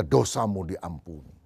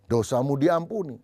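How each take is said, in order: First: Lower, slow, gentle "Dosamu diampuni"; solemn pronouncement. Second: Said in the usual way. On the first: Acted. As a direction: angel to Isaiah, slow solemn blessing. Angel declares sins forgiven.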